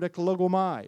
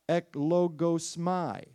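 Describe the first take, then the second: First: The word is said at normal speed. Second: The word is said slowly.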